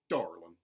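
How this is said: The R sound is hard and strong. "mountain, where the R sounds are retained, but they are hardened"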